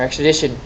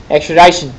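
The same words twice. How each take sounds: First: "extradition" with DITION rhyming with "mission"; short-i pronunciation. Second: "Extradition" with DITION said like "DIE-shun"; long-i pronunciation. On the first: Teacher offering other pronunciation to class, "extradition" with short i. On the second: Teacher offering one pronunciation to class, "Extradition" with long i. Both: Shown as a demonstration. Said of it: "however you say it".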